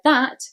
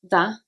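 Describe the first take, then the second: First: The final t is pronounced. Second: The final t is dropped.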